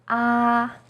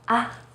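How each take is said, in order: First: The pitch stays high and level. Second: The syllable is light and short. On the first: "First tone, 一声, is high and steady" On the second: "in a more light and short way"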